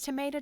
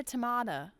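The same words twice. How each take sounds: First: Tomato said as to-MAY-to; tomato with an ay vowel, to-MAY-to; tomato the American way, to-MAY-to; tomato, two ways. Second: Tomato said as to-MAH-do; tomato the British-style way, to-MAH-to; tomato, two ways. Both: Shown as a demonstration. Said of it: "it's tomato, tomato".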